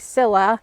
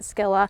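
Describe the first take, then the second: First: The word begins with a plain s sound. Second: The word begins with an sk sound. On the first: This is how the speaker's own region says it. "We usually say Scilla" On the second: This is how other countries say it. "in other countries they pronounce it Skilla"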